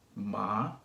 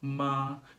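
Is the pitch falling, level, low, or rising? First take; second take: rising; level. First: The pitch rises from middle to high. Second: The pitch stays high and level throughout. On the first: "So it goes from middle to high" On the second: "Notice that my pitch doesn't change at all"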